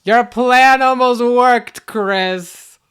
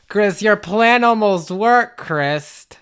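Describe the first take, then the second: First: Louder, higher, drawn-out taunt; gloating villain. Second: Slow, measured villain taunt; gloating villain. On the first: Evil role retaking the taunt to Chris, grand gloat. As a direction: stretch it big and theatrical. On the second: Evil role telling Chris the plan failed, measured gloat. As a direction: draw it out, savouring the near miss. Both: Pretend.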